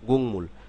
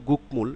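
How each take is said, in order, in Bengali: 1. প্রথম syllable ng ধ্বনি দিয়ে শেষ হয়। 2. প্রথম সিলেবল k ধ্বনি দিয়ে শেষ হয়। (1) "যখন শব্দে বলবো তখন গুং" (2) "আলাদাভাবে বললে"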